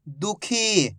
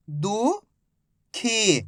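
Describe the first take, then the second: First: Said in the usual way. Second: दुखी drawn out slowly as दु... खी; stretched syllables. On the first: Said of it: "blended reading". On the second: Shown as a demonstration. Teacher to pupils, stretching दुखी slowly. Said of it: "slow syllable reading".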